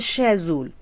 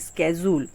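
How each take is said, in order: First: It starts with a British sh sound. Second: It starts with an American sk sound.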